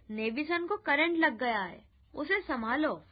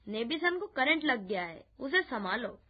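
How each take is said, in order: First: Raised, urgent alarm, held back; mild shout. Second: Said in the usual way. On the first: A narrator's reading. Girl alerts neighbours to the electric shock, mildly shouted. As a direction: call out the emergency with some force. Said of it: "जोर-जोर से चिल्लाने लगी". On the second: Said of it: "कहा".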